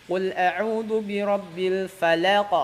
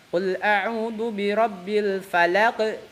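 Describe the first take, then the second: Both takes have the same delivery.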